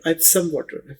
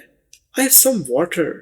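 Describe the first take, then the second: First: I and have are contracted into one syllable. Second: I and have are said as two full words. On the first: "बोलने में भी है आईव some water" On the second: "आई और H A V E हैव"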